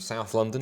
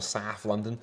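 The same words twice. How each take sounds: First: It is said in a plain, standard accent. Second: It is said in a local London accent.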